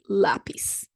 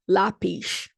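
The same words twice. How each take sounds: First: The final consonant is an s sound. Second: The final consonant is a sh sound. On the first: This is how people in São Paulo say it. "But in São Paulo, I say" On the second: This is how people in Rio de Janeiro say it. "common in Rio de Janeiro for people to do a sh in the end"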